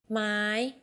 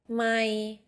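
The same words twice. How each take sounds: First: The word is said on a high tone. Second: The word is said on a level middle tone. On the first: It is a question word. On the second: It means mile.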